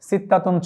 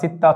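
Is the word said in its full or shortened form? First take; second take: full; shortened. First: The word ends with a full -tun ending. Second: The word ends in -a, without the -tun ending. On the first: "সিত্তাতুন শব্দটি আমরা লেখার সময় লিখব" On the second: "উচ্চারণে আমরা সিত্তাতুন না বলে সিত্তা বললেও হবে"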